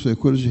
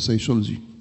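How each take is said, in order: First: The middle consonant is a 'k' sound. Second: The middle consonant is an 'sh' sound. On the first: "على انها كاف مش شين" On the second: "هيقولوا سايشولوجي"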